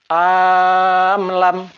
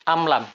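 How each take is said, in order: First: The first vowel is drawn out long. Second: The first vowel is short. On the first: The speaker calls it wrong. "salah sekiranya hamzah koto dipanjangkan" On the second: The speaker calls it right. "Hamzah koto harus dilafazkan pendek"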